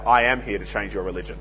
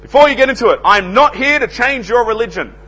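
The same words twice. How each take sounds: First: Low, soft retort with AM set against "not"; understated, offhand punchline; sly comeback. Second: High, loud door-to-door pitch opener; imitating a cheery salesman's loud disclaimer; grinning announcement. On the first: Retold or imitated. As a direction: slip it in casually, dropped right down. His comeback to the salesman's line. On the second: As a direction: announce it brightly with a big grin, up high. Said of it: "big, broad grin".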